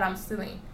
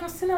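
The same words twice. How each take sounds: First: "I'm stealing" said lower and softer, dropping away in disbelief; flat disbelieving repeat. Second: High, mocking accusation with "I'm stealing" pitched up; mocking her accuser. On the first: Retold or imitated. Repeating the cashier's charge in disbelief, low and quiet. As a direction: let "I'm stealing" fall low and quiet, half to yourself. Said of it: "you can't just conclude like that". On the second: Retelling the cashier accusing her, high and mocking. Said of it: "And she was like".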